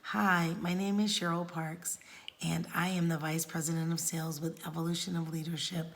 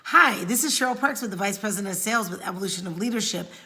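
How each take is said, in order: First: It is said slowly and methodically. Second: It is said quickly and rushed.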